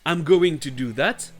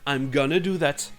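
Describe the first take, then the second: First: Going to is said in full. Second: Going to is reduced to gonna. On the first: "I'm going to do that va devenir I'm gonna do that" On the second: "c'est la contraction familière de going to"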